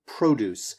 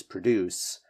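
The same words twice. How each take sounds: First: "produce" as PRO-duce, first syllable stressed; noun stress. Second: "produce" as pro-DUCE, first syllable reduced; verb stress. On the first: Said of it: "strong emphasis on the first syllable". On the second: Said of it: "separate that from the verb, right, which is produce". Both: Shown as a demonstration.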